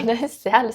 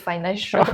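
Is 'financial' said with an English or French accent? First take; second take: French; English. First: It is said with a French accent. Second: It is said with an English accent. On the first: The speaker calls it wrong. "c'est pas fin- financial" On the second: The speaker calls it right. "c'est financial"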